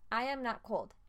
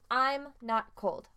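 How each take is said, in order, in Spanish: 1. 'I am' se dice como dos palabras completas. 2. 'I am' se contrae en una sola sílaba.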